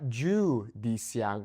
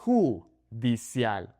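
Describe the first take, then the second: First: Judicial starting JOO, slow; anglicised j in "judicial"; wrong English J. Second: Judicial slowly as hoo, dee, SYAHL; "judicial" in syllables, j as h; Spanish J. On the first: Teacher shows what to avoid, judicial with English j. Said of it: "It's not judicial". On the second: Teacher corrects the J, slow Spanish judicial. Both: Shown as a demonstration.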